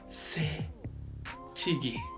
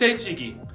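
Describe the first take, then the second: First: The word is said slowly, each syllable separated. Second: The word is said at a normal, quick pace.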